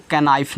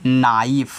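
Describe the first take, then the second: First: कनाइफ with k sounded, "ka-naif"; wrong pronunciation. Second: नाइफ with silent k, "naif"; correct pronunciation. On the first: Teacher warning students off misreading knife, k sounded in कनाइफ. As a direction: read कनाइफ as spelt, k voiced. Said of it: "नहीं पढ़ोगे". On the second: Teacher showing students how knife is read, k silent in नाइफ. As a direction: start नाइफ straight on the n. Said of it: "तो इसको क्या पढ़ोगे?". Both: Shown as a demonstration.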